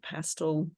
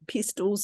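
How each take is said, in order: First: The word is said in a neutral accent. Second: The word is said in a New Zealand accent.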